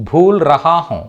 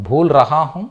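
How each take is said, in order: Both takes have the same delivery.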